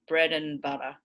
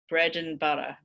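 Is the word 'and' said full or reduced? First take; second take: reduced; reduced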